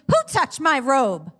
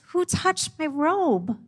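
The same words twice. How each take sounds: First: It sounds accusing and confrontational. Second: It sounds curious and inviting.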